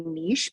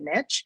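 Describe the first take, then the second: First: The word is said the Canadian way. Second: The word is said the American way. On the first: The listener is Canadian. "Whenever I talk to Canadians, I say niche" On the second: The listener is American. "when I talk to Americans, I say niche"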